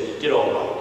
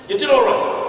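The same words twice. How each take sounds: First: Put-on old pastor's understated praise. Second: High-pitched echo of faint praise; mock-indignant repeat. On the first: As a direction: murmur grudging approval, low. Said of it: "My pastor hit my knee and he said". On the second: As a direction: throw the words back in a high voice. Repeats pastor's faint praise incredulously.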